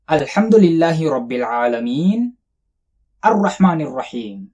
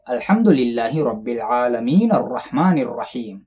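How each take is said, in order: First: There is a pause after العالمین. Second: The words run on without a pause.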